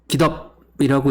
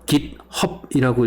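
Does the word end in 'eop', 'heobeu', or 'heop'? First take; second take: eop; heop. First: Two syllables, with no h sound before the end. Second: Two syllables, with an h sound before the end. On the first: "깃업이라고 읽기도 하고요" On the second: "깃헙이라고 읽기도 하고"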